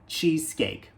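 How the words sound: It ends cleanly on the k sound. The speaker calls it right. "nós devemos pronunciar cheesecake"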